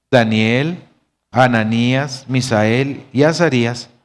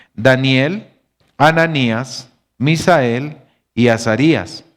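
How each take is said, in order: The two takes are said the same way.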